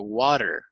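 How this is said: It is said in an American accent. "el inglés americano"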